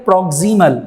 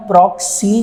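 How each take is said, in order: First: "proximal" said in full, all three syllables PROK-si-mal; full correct word. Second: "proxy" said short, cut off after two syllables; wrong clipped reading. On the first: Teacher giving students the correct full "proximal". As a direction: give every syllable of "proximal". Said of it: "proxy पढ़ना है". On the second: Teacher showing students the wrong reading, clipped "proxy". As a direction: clip it to "proxy" like the mistake to avoid. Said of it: "इस word को आपने proxy नहीं पढ़ना". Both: Shown as a demonstration.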